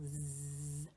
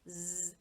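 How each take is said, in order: First: The buzzing z sound is held long. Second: The buzzing z sound is cut short. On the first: It imitates the noise a bee makes. "a bee makes a really long zzz" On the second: It is the sound used when reading the letter. "when we read it, we just want a short one"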